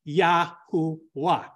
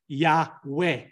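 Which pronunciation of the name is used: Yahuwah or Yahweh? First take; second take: Yahuwah; Yahweh. First: The name is pronounced Yahuwah. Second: The name is pronounced Yahweh. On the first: This follows the ancient vowel system. The speaker calls it right. "ancient vowel systems would cause you to pronounce the name Yahuwah" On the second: This follows the modern vowel system. The speaker calls it wrong. "Modern translators or modern vowels will pronounce it Yahweh"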